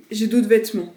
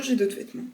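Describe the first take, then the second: First: Louder, emphatic claim; loud defensive insistence. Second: Said in the usual way. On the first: Real, not acted. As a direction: insist loudly. Insisting loudly on own clothes.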